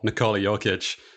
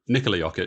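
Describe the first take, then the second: First: The name is said with an anglicized pronunciation. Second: The name is said with a native Serbian pronunciation. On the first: The speaker calls it wrong. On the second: The speaker calls it right.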